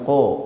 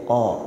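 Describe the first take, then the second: First: The vowel is narrow, with the mouth barely open. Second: The vowel is wide open, with the mouth open. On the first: The speaker calls it wrong. "Bukan qa" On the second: The speaker calls it right. "tapi qa ... buka mulut ... terbuka"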